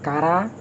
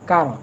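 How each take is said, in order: First: The word ends with an added a vowel. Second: The word ends with a bare r sound. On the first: The speaker calls it wrong. "এটা নয়" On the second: The speaker calls it right. "মূলত রয়ের উচ্চারণ রা হয়ে যাচ্ছে"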